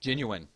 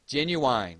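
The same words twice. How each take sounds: First: "Genuine" with a short unstressed final syllable, genyu-in; careful standard "Genuine", no wine at the end. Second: "Genuine" drawn out as genu-wine, last syllable like wine; Southern genu-wine. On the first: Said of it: "I'm watching me get it correct". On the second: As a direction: say "Genuine" Southern style, ending rhyming with wine. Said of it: "it's not a faked accent". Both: Shown as a demonstration.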